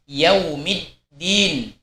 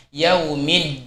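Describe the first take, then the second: First: Slow yaumiddin with the dd firmly stopped; stopped dal. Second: Yaumiddin with the dal leaking; wrong tajwid yaumiddin, flowing dal. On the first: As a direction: hold the dal in yaumiddin closed. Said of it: "pada lafaz yaumiddin". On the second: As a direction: let the d in yaumiddin run on. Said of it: "jangan sampai kita mengucapkannya". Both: Shown as a demonstration.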